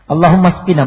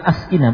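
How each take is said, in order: First: The word links smoothly with no glottal stop. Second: The word begins with a glottal stop and 'a'. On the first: The speaker calls it right. "hamzanya hamzah wasal" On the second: The speaker calls it wrong. "bukan askina"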